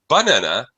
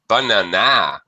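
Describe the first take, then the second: First: The stress is on the first syllable. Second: The stress is on the last syllable. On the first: "If you stress the first syllable" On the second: "If you stress the last syllable"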